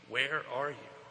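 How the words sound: It is asked in a threatening, judging way.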